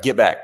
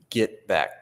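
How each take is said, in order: First: A sharp, louder "Get back." to warn him off; first forceful "Get back." at a pushy stranger; firm warning. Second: Said in the usual way. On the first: Retold or imitated. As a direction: bark "Get back." at someone coming too close. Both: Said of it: "and I just was like".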